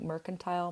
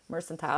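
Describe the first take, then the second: First: The c is said like ch. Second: The c is said like s. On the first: "C H" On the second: "or S"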